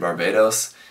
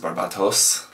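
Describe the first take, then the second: First: The consonant before the last syllable is D. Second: The consonant before the last syllable is T. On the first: The speaker calls it wrong. "pronouncing it like the country Barbados" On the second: The speaker calls it right. "it should be pronounced as a T, not as a D"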